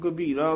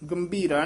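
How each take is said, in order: First: The first syllable has no nasal sound. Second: The first syllable has a nasal sound. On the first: The speaker calls it right. "इत्थे टिप्पी नहीं है" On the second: The speaker calls it wrong. "गंभीरा नहीं कहना इत्थे"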